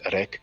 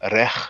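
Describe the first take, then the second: First: The word ends in a hard k sound. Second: The word ends in a throaty, breathy h sound. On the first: "to make it easy, many people pronounce it rek" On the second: "this sound here is the H"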